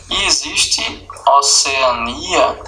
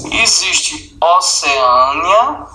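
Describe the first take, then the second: First: Oceania, stress on ni, slowly. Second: Oceânia, stress on â, slowly. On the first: Teacher gives the second pronunciation. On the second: Teacher gives the first pronunciation. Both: Shown as a demonstration. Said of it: "Pode falar das duas formas".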